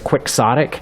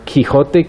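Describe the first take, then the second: First: The word is said with the English pronunciation. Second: The word is said with a Spanish-like pronunciation. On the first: "the proper English language pronunciation of the word" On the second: "even though you'd think it would be"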